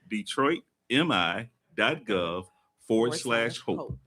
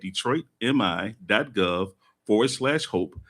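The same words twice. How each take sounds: First: It is said more slowly and deliberately. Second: It is said at normal conversational speed.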